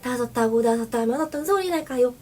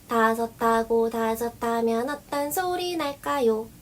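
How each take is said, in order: First: It is said at a somewhat faster pace. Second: It is said at a normal, basic pace. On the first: "이런 식으로 빠르기를 조금 빨리 해서" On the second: "이런 식으로 기본 빠르기로 한번 해주신 다음에"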